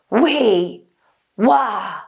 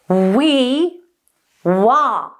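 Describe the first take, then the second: First: The sound is pushed and squeezed from the throat. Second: The sound buzzes forward at the lips. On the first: The speaker calls it wrong. "When you try and do this from the throat, by pushing, squeezing, or forcing, it sounds very different, like this" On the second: The speaker calls it right. "Keep the we and the wah in exactly the same resonant space"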